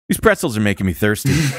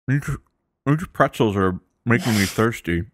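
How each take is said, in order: First: It sounds relaxed and casual. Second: It sounds worried, hiding a possibly cracked tooth.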